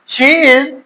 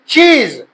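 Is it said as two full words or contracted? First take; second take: full; contracted. First: Two full words are said separately. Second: The two words merge into one syllable.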